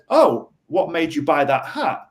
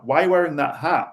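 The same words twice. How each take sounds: First: Friendly, interested what-question; a light, easygoing inquiry about the hat; curious question. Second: A mildly pointed, challenging why; a light accusation over the hat; accusatory question. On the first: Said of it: "if I said". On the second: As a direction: quiz him as if the hat is a problem. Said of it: "it's very accusatory". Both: Shown as a demonstration.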